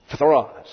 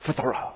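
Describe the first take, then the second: First: Phtharos with stress on the final ros; accent demo. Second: Phthara, quiet, with stress on the last syllable; accent demo. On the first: Teacher showing the class where the accent falls. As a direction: hit the last syllable of Phtharos. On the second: Teacher quietly testing the accent on the word. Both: Shown as a demonstration. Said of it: "how do you get the accent on the last one".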